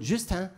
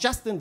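First: "Justin" in French, soft J and nasal ending; Frenchify "Justin" as "Zhüstã"; French version. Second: Said in the usual way. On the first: Shown as a demonstration. Teacher renaming a pupil, French pronunciation of "Justin". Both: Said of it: "die französische Version ihres Namens".

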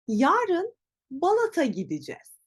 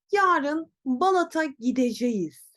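First: "gideceğiz" shortened to "gidicez"; casual "Yarın Balat'a gideceğiz" with "gidicez"; natural spoken form. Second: "gideceğiz" said in full, gi-de-ce-ğiz; careful reading of "Yarın Balat'a gideceğiz"; written form. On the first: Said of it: "Hemen bakıyorum". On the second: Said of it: "Peki nasıl telaffuz edeceğim". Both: Shown as a demonstration.

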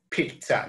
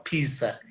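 First: "pizza" said as PEET-sa; pronunciation with T sound. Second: "pizza" said as PEE-sa, no T; mispronounced Z. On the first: Teacher showing students the Italian word, "pizza" with a T sound. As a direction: say "pizza" with a t before the s. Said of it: "la primera Z suena como T". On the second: Teacher warning students of the mistake, "pizza" without the T. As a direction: say "pizza" with a plain s, dropping the t. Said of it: "Por eso se dice pizza, no pizza". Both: Shown as a demonstration.

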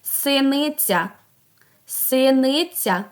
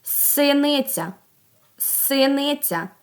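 First: Slow "Синиця" with the final Я sounded fully; last sound stressed. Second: Slow "Синиця" with the opening С held; first sound stressed. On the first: Teacher asks for the last sound, slow "Синиця" with final Я emphasized. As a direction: draw out the closing Я of "Синиця". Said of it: "А останній". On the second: Teacher asks for the first sound, slow "Синиця" with opening С held. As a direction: draw out the С that starts "Синиця". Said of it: "Який перший звук". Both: Shown as a demonstration.

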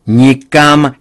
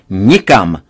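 First: Loud, higher refusal; forbidding shout. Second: Loud with a hard falling finish; final refusal. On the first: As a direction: shout her plan down. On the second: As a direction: slam the word down to close it. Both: A narrator's reading. Father forbids India trip.

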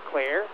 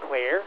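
No difference in how they are said.

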